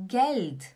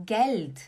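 Both takes have the same delivery.

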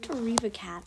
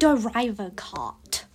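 First: The last syllable has the vowel of 'cat'. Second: The last syllable has the vowel of 'cot'. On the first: This is the speaker's own way of saying the name. "I pronounce it Deriva Cat" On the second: This is how the artist herself says the name. "but she pronounces it Deriva Cot"

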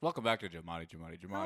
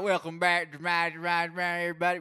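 First: It is said in his normal voice. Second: It is said in a put-on accent.

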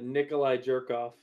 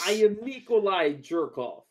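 First: The name is said flatly, without flair. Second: The name is said with dramatic, energetic flair.

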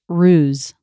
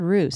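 First: The word ends with a Z sound. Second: The word ends with an S sound. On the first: The speaker calls it right. "it's pronounced ruse" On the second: The speaker calls it wrong. "I said it with an S"

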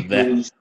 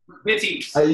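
First: The middle consonant is a W-like sound. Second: The middle consonant is a clear V sound. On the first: The speaker calls it wrong. "you did the Pavel pronunciation of the V" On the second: The speaker calls it right. "How do you say it"

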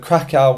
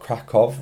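First: The name has an anglicised British pronunciation. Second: The name has the pronunciation heard locally. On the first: "which is probably the British way of saying it" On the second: "which might be the correct way of saying it"

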